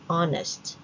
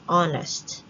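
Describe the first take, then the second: First: The h at the start is silent. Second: The h at the start is silent.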